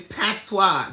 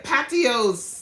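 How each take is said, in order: First: Patois said slowly as PAT-wah; firm, louder "patois", two syllables ending in wah; correct patois. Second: Patois misread as "Patios", PAT-ee-ohs; loud, high mocking "Patios", ending in ohs; mispronounced patois. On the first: Shown as a demonstration. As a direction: correct them with a drawn-out "patois", pat-twah. Corrects the mispronounced word. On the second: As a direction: imitate his blunder, "Patios" with three syllables. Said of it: "he was like".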